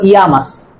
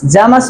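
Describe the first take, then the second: First: Llamas begun with a "y" glide, "yamas"; double-l as y. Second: Llamas begun with a "j" sound, "jamas"; double-l as j. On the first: Teacher offering viewers the other variant, y sound. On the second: Teacher offering viewers one accepted variant, j sound. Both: Shown as a demonstration. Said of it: "Llamas or llamas".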